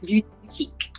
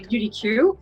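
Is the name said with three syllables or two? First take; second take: two; three. First: The name is said as two syllables, boutique. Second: The name is said as three syllables, beauty-Q. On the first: The speaker calls it right. "but it's boutique, like beauty boutique" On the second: The speaker calls it wrong. "everybody in the beginning say Beauty Q"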